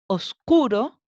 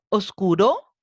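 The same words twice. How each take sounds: First: The stress is on the second-to-last syllable. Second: The stress is on the last syllable. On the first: The speaker calls it right. "Está acentuada en la penúltima" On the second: The speaker calls it wrong. "¿Está acentuada en la última?"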